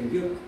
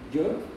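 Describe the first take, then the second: First: It begins with a 'y' sound as in yes. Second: It begins with a 'j' sound as in jam. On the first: The speaker calls it right. "You say yuk" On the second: The speaker calls it wrong. "you don't pronounce the, the J in the English way"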